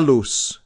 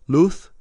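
First: The final consonant sounds like an S. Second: The final consonant sounds like a TH.

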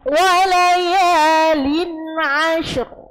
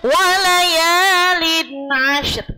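First: The final r sound is heavy and thick. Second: The final r sound is light and thin. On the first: The speaker calls it right. "maka dibaca te tebal" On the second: The speaker calls it wrong. "Jadi bukan walayalin ashr"

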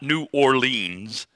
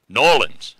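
First: It is said in an outsider's way. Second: It is said in the local Southern way. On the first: The speaker calls it wrong. "Not New Orleans" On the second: The speaker calls it right. "I think that's how she would say it"

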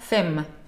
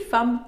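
First: A vowel is pronounced after the final 'm'. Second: The word ends on the 'm' sound. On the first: The speaker calls it wrong. "никакая femme" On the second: The speaker calls it right. "Homme и femme читаем вот как я произношу"

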